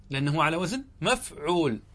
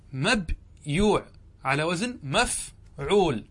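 First: Said in the usual way. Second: مبيوع على وزن مفعول drawn out slowly, each word spaced for students; slow spelling-out. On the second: Shown as a demonstration. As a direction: stretch out مبيوع and مفعول slowly like a teacher dictating.

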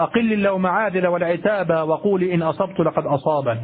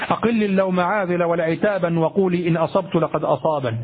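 First: والعتاب with no n when joining the two halves of the verse; correct connected recitation. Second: والعتابا sounded as walʕitaban with the nunation kept in connected speech; wrong connected recitation. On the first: Teacher reciting the verse the right way with no nunation on والعتاب. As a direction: join the halves smoothly, the n of والعتاب dropped. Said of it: "هكذا". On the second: Teacher giving the wrong reading with nunation kept on والعتابا. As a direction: keep the n on والعتابا mid-verse, as students shouldn't. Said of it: "ولا تقل". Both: Shown as a demonstration.

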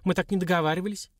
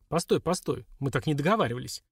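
First: Higher-pitched peeved protest; displeased complaint, pitched up; disgruntled. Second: Mildly flustered, hurried objection; understated alarm, near usual pitch; alarmed protest. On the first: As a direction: object as if cheated. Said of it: "недовольно пробурчала Лилька". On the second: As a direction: try to stop someone leaving. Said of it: "всполошился Бурышкин". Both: A narrator's reading.

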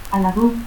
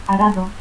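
First: Aladú with L for R and final u. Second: Said in the usual way. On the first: Shown as a demonstration. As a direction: say arado as "Aladú". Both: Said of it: "Lanchero, ranchero".

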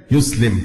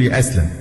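First: يسلم said YUS-lim, with u then i; correct verb form. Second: يأسلم said ya'aslam, all a vowels; mistaken verb form. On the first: Teacher giving the proper word, يسلم said yuslim. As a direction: say يسلم as yuslim, set apart after a pause. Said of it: "إنما هي". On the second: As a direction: say يأسلم the wrong way, ya-ASLAM. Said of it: "ما يليق أبدًا بأي مسلم يقول". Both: Shown as a demonstration.

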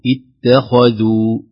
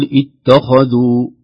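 First: اتخذوا with a light ت and a heavy خ; slow model take of اتخذوا, keeping the خ full; correct recitation. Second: اتخذوا with the خ made light by the ت; wrong, thinned خ. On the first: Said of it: "نقول اتخذوا". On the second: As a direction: show the mistake: a thin خ in اتخذوا. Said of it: "لا نقول". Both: Shown as a demonstration.

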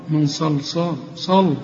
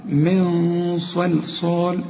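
First: من صلصال with a light, thin sad as in صل; the mistake: صلصال said thin and quick; mock wrong reading; wrong pronunciation. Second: من صلصال very slow with a heavy nasal nun; the right way, chanted; correct recitation. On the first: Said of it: "اوعى تقول لي من صل". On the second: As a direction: recite من صلصال slowly, sads full and emphatic. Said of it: "هنقول". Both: Shown as a demonstration.

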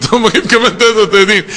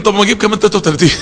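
First: Fast, through a laugh; amused mock counting. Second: Rattled off very fast; hurried mock counting; rushed counting. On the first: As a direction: laugh at the habit while saying it. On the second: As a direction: rush it like ticking off a count. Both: Mocking rote counting of dhikr.

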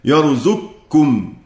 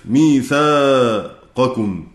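First: يرزقكم said slowly as yarzukkum, qaf fully merged into kaf; slow demo of يرزقكم with the qaf assimilated, no q sound; يرزقكم pronounced yarzukkum with complete idgham; merged reading. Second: ميثاقكم said very slowly with the qaf fully pronounced before kaf; slow demo of ميثاقكم, qaf kept distinct; ميثاقكم drawn out as mithaqukum, no merging; clear qaf. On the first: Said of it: "يعني يقرأ هكذا". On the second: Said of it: "لماذا نظهر القاف". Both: Shown as a demonstration.

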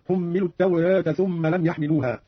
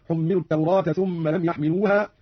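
First: "التوراة" said "at-tawreeta"; taqlil. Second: "التوراة" said "at-tawraata", open a; open fath. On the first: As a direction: tilt the long a of "التوراة" toward e. (تقليل ألف "التوراة") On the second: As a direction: keep the long a of "التوراة" wide. (فتح ألف "التوراة") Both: Shown as a demonstration. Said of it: "بالفتح والتقليل في لفظ التوراة".

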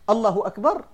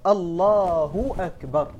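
First: الله أكبر with the long a of الله cut short, said quickly; takbir without the long vowel. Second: الله أكبر slow, the long a in الله fully drawn out; full natural madd. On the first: Teacher showing students the invalid takbir, natural madd shortened. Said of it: "بدون مدها". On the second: Teacher showing students the correct takbir, slow with full madd. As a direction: stretch الله أكبر slowly, giving the madd its full length. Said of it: "المد الطبيعي تجيبه كما هو". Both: Shown as a demonstration.

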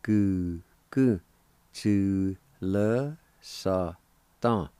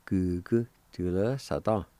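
First: Slow, separated syllables. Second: Said in the usual way. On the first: Shown as a demonstration. Teacher putting both parts together for learners, syllable by syllable. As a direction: sound out the whole phrase slowly, piece by piece. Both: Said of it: "And together".

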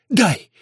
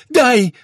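First: Loud, inhuman growled demand; almost growl it, hollow and forceful; muffled beastly bark; dull near-growl. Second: High, very loud demand; sharp high yell; loud shout. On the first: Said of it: "чуть ли не с рычанием". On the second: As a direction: shout it out with fury. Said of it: "громко крикнула она". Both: A narrator's reading.

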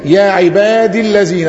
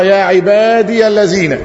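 First: "عبادي" with a short final i running straight into "الذين"; shortened form. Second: "عبادي" with the ya voiced as "ibadiya" before "الذين"; original full form. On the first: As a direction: say "عبادي الذين" joined, the ya dropped. (حذف الياء ووصل الكلمتين) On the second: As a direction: slowly sound out the hidden ya in "عبادي". (نطق الياء مفتوحة على الأصل: عباديَ الذين) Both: Shown as a demonstration. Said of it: "أصلها".

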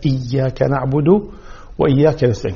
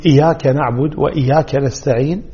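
First: إياك نعبد وإياك نستعين, held "iyy-yaka"; clear shadda. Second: إياك نعبد وإياك نستعين with single short y; no shadda. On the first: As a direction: bring out the double y in إياك. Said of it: "نوضح شدة الياء". (توضيح شدة الياء في إياك) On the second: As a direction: read each إياك lightly as "iyaka". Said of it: "فلما يقول". (تخفيف ياء إياك) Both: Shown as a demonstration.

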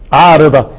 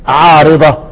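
No difference in how they are said.

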